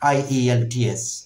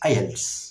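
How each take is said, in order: First: Each letter is spoken separately. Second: It is spoken as a single word. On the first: The speaker calls it wrong. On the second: The speaker calls it right.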